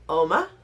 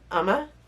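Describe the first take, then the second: First: The name begins with an 'oh' vowel. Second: The name begins with an 'uh' vowel. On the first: The speaker calls it wrong. "You would think pronounced Oma" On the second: The speaker calls it right. "This is what they say that this is pronounced like"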